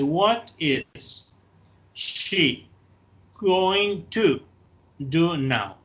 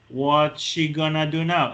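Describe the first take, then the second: First: 'Going to' is said in full. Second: 'Going to' is reduced to 'gonna'. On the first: "no lo contraigo" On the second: "In informal speech"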